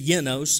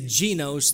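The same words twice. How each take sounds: First: The word gets a careful Greek pronunciation. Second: The word gets an everyday anglicized pronunciation. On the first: The speaker calls it right. "truly it's genos, if you pronounce it correctly" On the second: The speaker calls it wrong. "which we would say genos"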